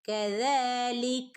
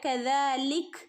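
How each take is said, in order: First: It keeps the final vowel and flows onward. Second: It ends on a bare k and stops. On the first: The reading continues without pausing. "കൂട്ടിച്ചേർത്ത് ഓതിപ്പോവുകയും ചെയ്യാവുന്നതാണ്" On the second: The reading pauses at this point. "കദാലിക് എന്ന് പറഞ്ഞ് നിർത്തുകയും ചെയ്യാം കേട്ടോ, കാഫിന് സുക്കൂന് കൊടുത്തിട്ട്"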